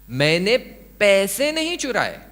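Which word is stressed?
पैसे. The word पैसे carries the stress. Something other than money was stolen. "मैंने कुछ और चुराया"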